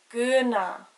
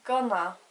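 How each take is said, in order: First: The first vowel is a long oo sound. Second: The first vowel sounds like the u in gonna. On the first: The speaker calls it right. "the word for dress is guna" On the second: The speaker calls it wrong. "didn't have the father on the U, it would sound like gonna"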